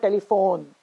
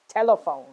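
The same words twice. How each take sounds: First: Telephone as teli-PHONE; wrong late stress. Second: Telephone as TEL-uh-phone; stress on first syllable. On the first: Teacher showing what to avoid, telephone as teli-PHONE. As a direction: put the weight on PHONE in telephone. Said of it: "It's not telephone". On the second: Teacher correcting the mistake, telephone as TEL-uh-phone. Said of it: "it's telephone". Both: Shown as a demonstration.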